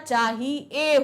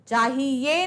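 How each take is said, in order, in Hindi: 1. शब्द सादे 'e' ध्वनि पर खत्म होता है। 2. शब्द 'ye' ध्वनि पर खत्म होता है। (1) "ए निकल रहा है" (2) "नहीं होता"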